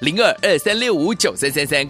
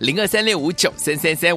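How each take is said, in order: First: The number is read at a slow pace. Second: The number is read at a quick pace.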